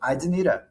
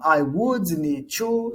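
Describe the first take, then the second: First: Would is contracted and said faster. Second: Would is said in full, more slowly. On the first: "Mais rápido" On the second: "Ou basiquinho"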